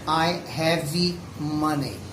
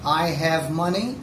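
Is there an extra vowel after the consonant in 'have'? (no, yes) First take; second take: yes; no. First: An extra vowel sound follows the consonant in have. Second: The word have ends cleanly on its consonant. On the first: "Brazilians usually say I have money" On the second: "Or I have money"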